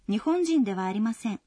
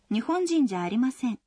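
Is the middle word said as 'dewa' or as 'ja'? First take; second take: dewa; ja. First: The middle word is said in full as dewa. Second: The middle word is shortened to ja.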